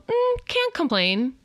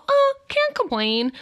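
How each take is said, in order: First: High, slow "Mm, can't complain"; lightly mocked stock reply; mock glum reply. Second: High, drawn-out mock "Oh, can't complain"; sing-song parody of a tired reply; mock glum reply. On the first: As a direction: parody a half-hearted answer. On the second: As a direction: parody a bored stock answer, slowly. Mimicking glum stock reply.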